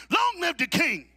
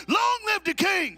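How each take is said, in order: First: Loud, higher call for the crowd. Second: Much louder, higher, slow shout; shouted proclamation. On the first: Preacher calling to the men to repeat, loud call. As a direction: lead the chant. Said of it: "you repeat it after me". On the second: Preacher showing the men how to say it, loud shouted proclamation. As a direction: proclaim it like the king walked in. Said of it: "say it like the king is in the room". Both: Shown as a demonstration.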